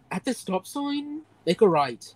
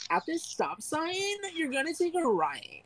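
First: Annoyed Irish Siri. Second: Put-on blonde girl. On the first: Retold or imitated. Fiancée's GPS giving directions, annoyed Irish accent. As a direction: imitate a fed-up Irish GPS voice. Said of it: "it sounds so annoyed". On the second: Giving stop-sign directions as an imitated blonde girl. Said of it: "a blonde girl being like".

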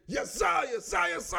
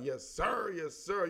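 First: Mimicking friend mocking. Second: Said in the usual way. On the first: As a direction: parrot it back high and teasing. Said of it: "He be like, why do you always say". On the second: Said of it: "I don't be saying it like that".

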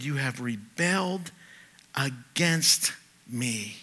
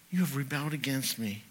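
First: Against drawn out very slowly and solemnly; God's accusation said slowly, word by word; slow emphatic quote. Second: Said in the usual way. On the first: Shown as a demonstration. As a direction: lean on each word of You have rebelled against.

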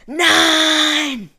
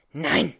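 First: Piercing high shriek, much louder; shrill scream. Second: Short, louder angry snap; hissed no. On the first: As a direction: scream it out in horror, high and long. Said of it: "Die schrille Stimme der Bibliothekarin". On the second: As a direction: spit the word back at her. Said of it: "fauchte sie". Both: Acted.

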